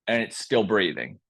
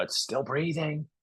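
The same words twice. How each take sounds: First: Said in the usual way. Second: Hushed and soft, a little higher; whispered. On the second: Acted. Scout rat hushing the news back into the cave, softly. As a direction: whisper it so the coyote can't hear. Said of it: "he whispers back into the cave".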